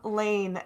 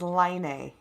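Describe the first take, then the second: First: The vowel sounds like the one in 'lane'. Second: The vowel sounds like the one in 'line'. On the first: The speaker calls it right. "the name Lane" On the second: The speaker calls it wrong. "It mispronounces the name Lane as Line"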